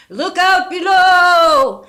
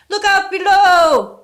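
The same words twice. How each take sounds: First: High, slow, loud wailing warning; frightened ghostly cry. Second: High, loud, slow bellowing warning; loud ghostly yell. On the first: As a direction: cry out like a ghost scared of falling. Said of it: "sounding shaky and frightened". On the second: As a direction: yell it out strong, no longer weak. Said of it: "yelled the voice, sounding no longer weak, but quite loud". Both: A narrator's reading.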